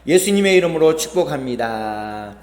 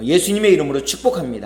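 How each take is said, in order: First: Blessing greeting. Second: Quick, bright model of the greeting; blessing greeting demo. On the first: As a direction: bless the person beside you warmly. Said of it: "시작". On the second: Pastor showing the congregation the blessing, quick. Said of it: "한번 축복하고 인사 나누도록 하겠습니다". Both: Shown as a demonstration.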